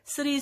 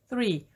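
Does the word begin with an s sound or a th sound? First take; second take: s sound; th sound. First: The word begins with an s sound. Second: The word begins with a th sound. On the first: The speaker calls it wrong. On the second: The speaker calls it right.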